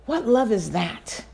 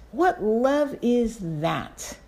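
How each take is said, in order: First: Said in the usual way. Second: "What love is that?" drawn out very slowly, falling; slowed, awed repeat; lingering awe. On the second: Real, not acted. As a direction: let the question hang in wonder. Slower second take of question.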